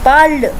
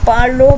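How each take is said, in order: First: The word ends on the consonant sound. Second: The word ends with an added vowel sound. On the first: The speaker calls it right. "पार्ल pronunciation होती है इसकी" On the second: The speaker calls it wrong. "पार्लो मत करिएगा, ये बिल्कुल गलत प्रोनाउंसिएशन है"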